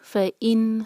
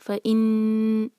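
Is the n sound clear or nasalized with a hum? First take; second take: clear; nasalized. First: The n is short and clear, without hum. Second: The n is held with a nasal hum. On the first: The speaker calls it right. "यहाँ पर इजहार होगा।" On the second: The speaker calls it wrong. "हमने नून पर गुन्ना नहीं करना है, फ़ इन ऐसे नहीं पढ़ना है"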